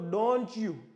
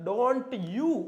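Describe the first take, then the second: First: The words are linked with a ch-like sound. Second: The two words are said separately, no ch sound. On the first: "સાથે બોલો તો ડોન્ટ યુ, થોડોક ચ જેવો ઉચ્ચાર બોલાય છે" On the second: "આનો ઉચ્ચાર ડોન્ટ યુ"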